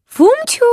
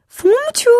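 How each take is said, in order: First: Calling out much higher and louder with a rise; mother calling. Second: Second call much higher and louder, rising; mother calling. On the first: Mother fox calling her cub to breakfast, loud call. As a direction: call him from across the clearing. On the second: Mother fox calling her son again, loud call. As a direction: call once more, sing it out. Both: Acted. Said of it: "zawołała mama".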